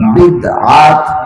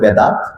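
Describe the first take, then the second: First: The first vowel is 'i', with a throat catch. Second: The first vowel is 'e', with no break. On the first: The speaker calls it right. "আল্লাহর রাসূল ... তিনি বলেছেন বিদআত" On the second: The speaker calls it wrong. "বেদাত যে শব্দটা তারা উচ্চারণ করে"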